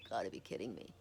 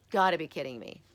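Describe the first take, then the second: First: Low, hushed, stunned aside; stunned disbelief. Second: Louder retold exasperation; retold disbelief. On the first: Retold or imitated. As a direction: mutter it in retold disbelief. Retold stunned reaction, first take. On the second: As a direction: say it out loud in mock disbelief. Retold reaction repeated louder.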